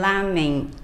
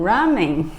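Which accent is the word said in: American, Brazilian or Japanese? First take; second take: Japanese; American. First: It is said the way Japanese say it. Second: It is said the way Americans say it. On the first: The speaker calls it right. "mas o correto é lamen" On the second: The speaker calls it wrong. "os americanos falam ramen"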